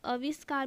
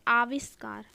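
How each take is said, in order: First: "आविष्कार" opening on short a, aviskaar; wrong short vowel. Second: "आविष्कार" opening on long aa; correct long vowel. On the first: Teacher quoting the error to students, mispronounced. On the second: Teacher correcting the word, long aa. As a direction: lengthen the first vowel of "आविष्कार". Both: Shown as a demonstration. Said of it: "भी नहीं बोलते".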